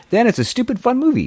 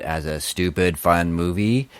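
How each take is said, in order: First: High, loud mock enthusiasm; excited shout. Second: Said in the usual way. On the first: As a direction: belt it out gleefully. Repeats phrase in building steps.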